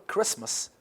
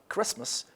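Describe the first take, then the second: No difference in how they are said.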